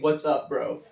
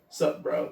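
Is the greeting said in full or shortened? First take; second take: full; shortened. First: The greeting is said in full. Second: The greeting is cut down to one syllable. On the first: "nobody says the full thing" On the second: "they dumb the phrase down"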